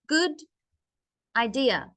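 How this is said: There is a pause after the first word. The speaker calls it wrong. "try not to stop after good. It's not good idea"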